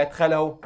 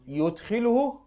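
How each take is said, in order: First: يدخله said yadkhuluhu, with a after y and u after kh; يدخله as yadkhuluhu, the plain three-letter form. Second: يدخله said yudkhiluhu, with u after y and i after kh; يدخله as yudkhiluhu, the doubled-letter form. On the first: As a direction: open with ya in يدخله and round it into -khuluhu. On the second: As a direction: open with a clear yu in يدخله and end it in -iluhu. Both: Shown as a demonstration. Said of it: "ولا يدخله".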